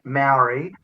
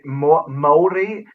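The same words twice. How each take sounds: First: The word has an anglicized English pronunciation. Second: The word has a Māori-style pronunciation. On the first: It is the way an Australian accent says it. "is it ignorance to say Maori" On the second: It borrows a pronunciation foreign to the accent. "that's not the way our accent works"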